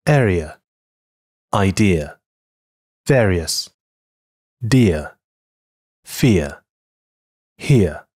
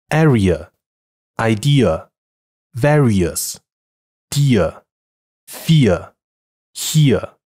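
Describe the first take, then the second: First: "dear, fear, here" repeated with a clean glide; model pronunciation. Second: "Area" with a Mandarin a, "dear" with a hard t, "here" with a rough h; mispronounced on purpose. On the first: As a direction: demonstrate the correct diphthong once more. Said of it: "再来一遍". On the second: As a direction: typical Chinese learner's wrong vowels. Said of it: "以下是错误读音，请避免". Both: Shown as a demonstration.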